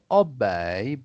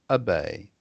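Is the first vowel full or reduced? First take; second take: full; reduced. First: The first vowel is a full vowel sound. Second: The first vowel is reduced to an uh sound. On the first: The speaker calls it wrong. "not obey" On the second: The speaker calls it right. "you pronounce it like it's an uh"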